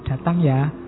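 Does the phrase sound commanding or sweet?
sweet. It is said in a soft, affectionate tone. It is a friendly, pleasant request. "kalau saya membacanya romantis kan jadi enak"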